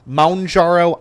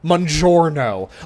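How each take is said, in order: First: The first syllable sounds like 'mount'. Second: It ends with an added 'no' syllable. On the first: This follows the spelling. "That's kind of how it's spelled" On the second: It sounds like an Italian food order. "like they're ordering a freaking pizza"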